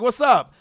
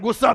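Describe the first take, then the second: First: It is said in a warm, friendly tone. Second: It is said in a confrontational, hostile tone. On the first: A genuine, kind greeting. "people are so nice out here" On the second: A challenge to fight. "You want to fight?"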